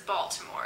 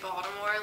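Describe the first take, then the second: First: The middle consonant sounds like a T. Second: The middle consonant sounds like a D. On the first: The speaker is not from the area. "everyone else that's not from the area says" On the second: The speaker is from Baltimore. "like it's spelled with a D"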